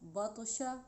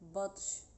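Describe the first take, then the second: First: The word ends with an open vowel. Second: The word ends on a closed consonant.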